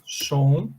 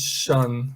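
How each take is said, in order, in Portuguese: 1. A terminação tem uma vogal 'o' aberta e plena. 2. A terminação tem uma vogal 'uh' curta e reduzida. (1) "com som de shon, assim, olha" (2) "com som de shan, dessa forma aqui"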